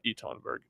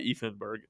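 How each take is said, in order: First: The first name has a 't' sound in the middle. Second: The first name has a 'th' sound in the middle. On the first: This is the name he no longer uses. The speaker calls it wrong. "and not" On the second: This is the name he now uses. The speaker calls it right. "he's gonna go by"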